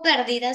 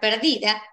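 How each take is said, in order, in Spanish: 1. El acento está en la primera sílaba. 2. El acento está en la segunda sílaba.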